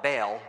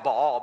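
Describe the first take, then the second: First: The word has a Southern US pronunciation. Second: The word has a standard, careful pronunciation. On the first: "but here in the South, we call it Baal" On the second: "if you want to actually pronounce it correctly, it's called Baal"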